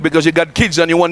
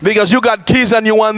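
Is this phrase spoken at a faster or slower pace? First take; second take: faster; slower. First: It is spoken at a normal, quicker pace. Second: It is spoken at a noticeably slower pace.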